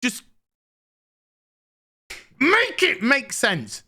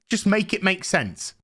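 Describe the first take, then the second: First: Exasperated plea. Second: Said in the usual way. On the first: Real, not acted.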